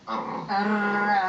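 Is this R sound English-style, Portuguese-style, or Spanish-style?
Spanish-style. The R is said the Spanish way. "In Spanish is R"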